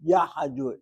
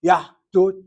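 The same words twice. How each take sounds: First: "yahdut" in three syllables, ya-ha-dut; changed pronunciation. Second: "Yahdut" loud and higher, two crisp syllables, YAH-DUT; original pronunciation. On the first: Teacher ending the drift demonstration, "yahdut" turned into ya-ha-dut. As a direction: open "yahdut" with a short "a" between h and d. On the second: Teacher asking students to watch, "Yahdut" loudly as closed yah-dut. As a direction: punch "Yahdut" with the h closed before the d. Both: Shown as a demonstration. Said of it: "Watch my mouth".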